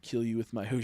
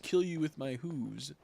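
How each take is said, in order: First: Mock moose threat. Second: Slow, menacing moose. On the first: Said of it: "moose nose". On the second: Pretend. Streamer voicing a moose threatening his enemy, slow and menacing. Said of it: "Moose nose".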